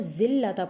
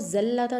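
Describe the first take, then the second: First: The first vowel is an 'i' sound. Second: The first vowel is an 'a' sound. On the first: The speaker calls it right. "बल्कि हम इसको ज़िल्लता पढ़ेंगे" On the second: The speaker calls it wrong. "ज़ल्लता नहीं पढ़ेंगे"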